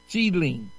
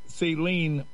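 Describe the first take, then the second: First: It begins with an 'st' sound, like steel. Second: It begins with a plain 's' sound, like saline. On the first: The speaker calls it right. "it's Steeline" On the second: The speaker calls it wrong. "It's not saline like an IV bag"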